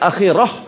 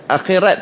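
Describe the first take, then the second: First: The word ends with an h sound. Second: The word ends with a t sound. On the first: The speaker calls it right. "Akhirat tu akhirah. Sebab akhirat ta marbutah" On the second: The speaker calls it wrong. "Akhirat bunyi ta pula"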